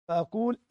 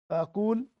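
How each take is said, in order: Both takes have the same delivery.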